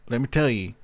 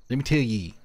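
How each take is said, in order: First: Said in the usual way. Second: Folksy Southern "ye". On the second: Shown as a demonstration.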